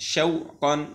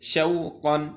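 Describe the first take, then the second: The two takes are said the same way.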